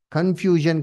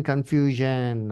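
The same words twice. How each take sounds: First: Said in the usual way. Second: "confusion" repeated slowly and lower, falling at the end; slow, lower echo. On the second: Acted. Preacher driving home the chaos of false teaching, slow low repeat. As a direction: drag out "confusion" the second time, dropping low.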